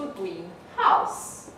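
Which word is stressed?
house. The stress falls on the word house. It is a house painted green. "a noun phrase"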